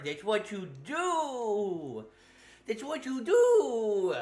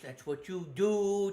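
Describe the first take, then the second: First: Mocking. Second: Said in the usual way. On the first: Mocking repeat, slow.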